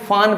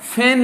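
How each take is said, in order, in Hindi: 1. इसका स्वर 'father' के a जैसा है। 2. इसका स्वर 'cat' के a जैसा है। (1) "कई स्टूडेंट क्या पढ़ेंगे, एफ ए एन फान पढ़ देंगे" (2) "यहाँ पर फैन लिखा हुआ है"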